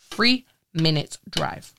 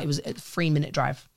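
First: "Three-minute drive" drawn out slow; slow, pointed repeat of "Three-minute drive"; slow emphatic repeat. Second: Said in the usual way. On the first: Shown as a demonstration. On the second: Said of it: "Three-minute drive, right?".

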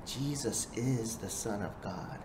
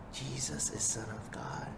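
First: Said in the usual way. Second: Hushed whisper of "Jesus is Son of God". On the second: Shown as a demonstration. Preacher whispering the truth to the listeners, hushed. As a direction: breathe it as a secret. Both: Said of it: "repeated as whisper".

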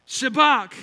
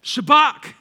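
First: Said in the usual way. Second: Shabach called out loud and high, rising; loud Hebrew word. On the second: Shown as a demonstration. Pastor teaching the congregation the word, loud and high. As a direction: announce Shabach loudly. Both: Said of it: "Here's the fifth word".

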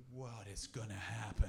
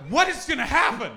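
First: Said in the usual way. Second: High, loud, startled cry; alarmed disbelief. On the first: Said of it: "And I was like". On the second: Retold or imitated. Comic watching the platform scene, high startled outburst. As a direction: yelp it in shocked confusion.

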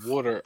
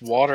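First: Water with a short 'oo' as in wood; pronounced WOOD-er. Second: Water with an open 'aw' vowel; pronounced WAW-ter. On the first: Comparing two ways people say it, water as WOOD-er. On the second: Comparing two ways people say it, water as WAW-ter. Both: Shown as a demonstration. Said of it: "if somebody says water and water".

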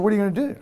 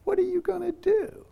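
First: Laughing through the repeated question, higher. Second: Much higher, grinning question from the driver; smiling driver's question. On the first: Real, not acted. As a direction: chuckle as you echo the driver's words. Repeats driver's line, laughing. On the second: Retold or imitated. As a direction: ask it lightly with a big grin, pitched way up. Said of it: "he smiles and goes".

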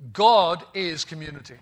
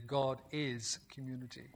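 First: God is community, God punched and louder; stressed statement. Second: God is community, said much softer and lower; quiet emphatic echo; soft restatement. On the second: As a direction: repeat "God is community" gently, almost to yourself. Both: Shown as a demonstration. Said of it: "I did not say God is a community".

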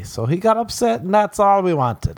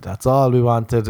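First: High, gleeful triumph; high gloating laugh in the voice. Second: Said in the usual way. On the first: Real, not acted. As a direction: crow over the win, pitched way up. Gloating after troll unfollows.

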